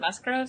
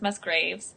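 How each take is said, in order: First: The second vowel sounds like 'oh'. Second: The second vowel sounds like 'ay'. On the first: The speaker calls it wrong. "I said it wrong last time. I said Musgroves" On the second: The speaker calls it right. "but it's Musgraves"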